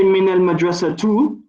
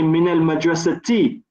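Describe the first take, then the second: First: The word ends with a final u vowel. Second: The word ends with a final i vowel. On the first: The speaker calls it wrong. "we don't say min al madrasatu" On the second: The speaker calls it right. "we say min al madrasati because the min is harful jar"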